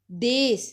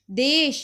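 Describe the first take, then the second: First: ਦੇਸ ending in a plain s; Punjabi s form. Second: ਦੇਸ਼ ending in sh, louder; sh form. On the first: Teacher showing the Punjabi form, ਦੇਸ with s. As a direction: say ਦੇਸ with s replacing sh. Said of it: "ਅਸੀਂ ਬੋਲਾਂਗੇ". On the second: Teacher giving the Hindi form, ਦੇਸ਼ with sh. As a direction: hit ਦੇਸ਼ with a final sh. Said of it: "ਦੇਸ਼ ਨੂੰ ਅਸੀਂ ਬੋਲਾਂਗੇ". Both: Shown as a demonstration.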